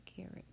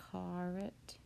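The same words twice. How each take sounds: First: "carrot" as care-ut, weak second vowel; usual pronunciation. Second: "caret" with a full, open first vowel; mispronounced carrot. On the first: Teacher giving the word to remember, usual "carrot" as care-ut. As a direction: say "carrot" softly with a reduced ending. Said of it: "word you kind of just have to remember". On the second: Teacher showing how carrot isn't said, spelling-based "caret". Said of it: "We don't quite say the". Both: Shown as a demonstration.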